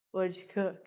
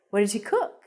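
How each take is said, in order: First: "cook" kept low and soft, without a question lift; no rise at the end. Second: "cook" swoops upward at the end; rising question. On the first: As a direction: say it like a statement, dropping on "cook". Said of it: "So I wouldn't say". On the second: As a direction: lift your voice on "cook" to ask. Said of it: "because your voice goes up". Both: Shown as a demonstration.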